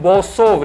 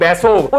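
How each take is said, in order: First: The first vowel sounds like o. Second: The first vowel sounds like e. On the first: The speaker calls it wrong. "नहीं बोसोव" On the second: The speaker calls it right. "नहीं बेसोव"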